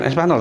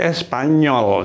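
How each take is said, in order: First: The middle consonant is a plain n sound. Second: The middle consonant is an ny sound. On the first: The speaker calls it wrong. "bukan Espanol" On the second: The speaker calls it right. "tapi Espanyol"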